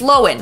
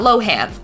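First: The name is said the newly revealed way. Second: The name is said the common way. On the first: The speaker calls it right. "It's Lohan" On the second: The speaker calls it wrong. "not Lohan"

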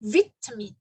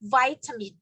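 First: It is said in a British accent. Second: It is said in an American accent. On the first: "คนอังกฤษจะอ่านว่า vitamin เป็นเสียงอิ" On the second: "คนอเมริกันจะอ่านว่า"

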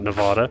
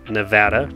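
First: The middle vowel sounds like the one in father. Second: The middle vowel sounds like the one in cat. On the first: The speaker calls it wrong. "not Nevada" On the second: The speaker calls it right. "Nevada, not Nevada"

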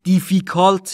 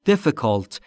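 First: The i vowels are long, like ee. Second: The i vowels are short and lax. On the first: The speaker calls it wrong. "difficult نیست عزیزان" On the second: The speaker calls it right. "ایها در difficult دوتاش به صورت کوتاه بین ای و ا تلفظ میشه"

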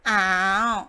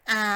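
First: The syllable is said with the third tone. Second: The syllable is said with the second tone. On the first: "第三个ตัวที่สามนะคะ" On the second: "ตัวที่สองนะคะ"

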